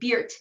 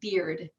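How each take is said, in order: First: The final D is devoiced. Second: The final D is voiced.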